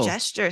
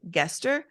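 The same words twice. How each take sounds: First: The word begins with a soft G sound. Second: The word begins with a hard G sound. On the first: The speaker calls it wrong. "gesture sounds so soft" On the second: The speaker calls it right. "I will say it my way ... I love a hard G"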